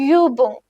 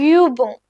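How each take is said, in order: No difference in how they are said.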